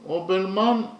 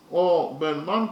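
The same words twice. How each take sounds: First: Said in the usual way. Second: "Obelman" pulled apart into its syllables; "Obelman" with a held first syllable, then two firm beats. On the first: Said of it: "Obelman consists of three syllables". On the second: Shown as a demonstration. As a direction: break "Obelman" into separate beats. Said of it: "consists of three syllables".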